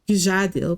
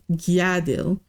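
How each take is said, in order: First: The name begins with a J sound. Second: The name begins with a Y sound. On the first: The speaker calls it wrong. "the name is not" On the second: The speaker calls it right. "Nords pronounce the J's like a Y sound"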